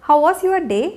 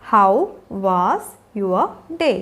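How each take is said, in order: First: Said in the usual way. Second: Slow, spaced-out words. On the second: Shown as a demonstration. Teacher showing learners how to greet children after school, word by word. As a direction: leave a gap after each word. Teacher models question slowly, then joined.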